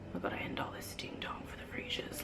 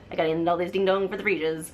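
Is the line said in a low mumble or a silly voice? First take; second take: low mumble; silly voice. First: It is said low and mumbled. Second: It is said in a silly, goofy voice. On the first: The speaker calls it right. "him saying it really low, like just kind of like mumbling all this madness" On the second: The speaker calls it wrong. "in this dumb voice"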